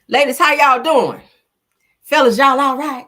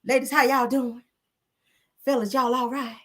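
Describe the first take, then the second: First: Big, loud soulful greeting to the chat; loud [name] style hello. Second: [name] voice. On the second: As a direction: coo the greeting in a hint of [name]. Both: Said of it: "in my [name] voice".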